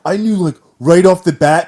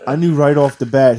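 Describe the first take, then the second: First: It is said in a put-on hipster voice. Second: It is read in a plain reading voice.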